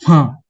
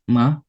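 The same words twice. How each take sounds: First: The pitch falls sharply from high to low. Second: The pitch rises from middle to high. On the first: "Nada keempat itu nada jatuh" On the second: "nada kedua, nada naik"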